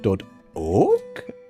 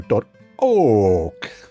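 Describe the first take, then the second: First: The pitch rises on the name. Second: The pitch falls on the name. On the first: "This is a rising" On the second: "the other way around is a falling inflection"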